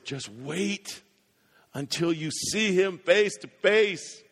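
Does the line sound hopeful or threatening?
hopeful. It is said in a hopeful, joyful tone. The meeting will bring joy. "If you're a follower of Christ"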